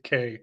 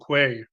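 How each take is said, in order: First: No w sound follows the k. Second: A w sound follows the k. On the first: The speaker calls it right. "but it's key and K" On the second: The speaker calls it wrong. "I always want to say qui and que"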